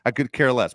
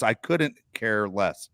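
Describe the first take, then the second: First: Said in the usual way. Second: "couldn't care less" slow and deliberate; emphatic correction. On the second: Shown as a demonstration. Correcting people who say it wrong, slow stress on "couldn't". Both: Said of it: "just say it wrong all the time".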